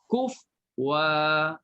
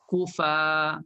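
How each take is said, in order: First: The word ends with a w sound before a. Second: The word ends in fa with no w sound. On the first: "tukar hamzah jadi waw" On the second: "Pertama boleh berhenti"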